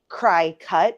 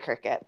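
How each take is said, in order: First: The first syllable is said like cry. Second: The first syllable is said like crick. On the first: "it might be cry cut because it cuts" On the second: "I always say cricket"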